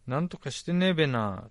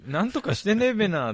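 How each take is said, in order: First: Lightly voiced Tochigi べな with a stretched ねえ; a hint of a Tochigi local saying ねえべな; Tochigi dialect. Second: Tochigi ねえべな said higher, falling at the end; hamming up the Tochigi べな, pitched up; Tochigi dialect. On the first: Mimicking how Tochigi people talk, a touch of Tochigi accent. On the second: Retold or imitated. Repeating the Tochigi phrase with a laugh, hammed-up Tochigi accent. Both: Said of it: "って言いますよね".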